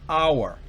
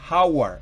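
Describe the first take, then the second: First: The word starts with a vowel, h silent. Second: The word starts with a pronounced h sound. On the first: The speaker calls it right. "es hour" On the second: The speaker calls it wrong. "no es hour"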